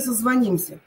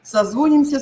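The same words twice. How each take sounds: First: Созвонимся stressed on «ним»; созвонимся, third syllable stressed. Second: Созвонимся stressed on «зво»; Созвонимся, second syllable stressed. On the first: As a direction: hit the И in созвонимся. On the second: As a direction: hit a full О in Созвонимся. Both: Shown as a demonstration. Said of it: "Куда упадёт ударение".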